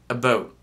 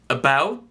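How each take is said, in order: First: It is said with a Canadian accent. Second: It is said with an American accent.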